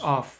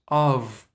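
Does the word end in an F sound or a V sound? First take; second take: F sound; V sound. First: The word ends with an F sound. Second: The word ends with a V sound. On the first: The speaker calls it wrong. "not as of" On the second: The speaker calls it right. "There's only V sound"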